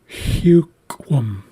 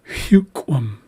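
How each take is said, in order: First: The word is spoken very slowly. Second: The word is spoken at normal speed.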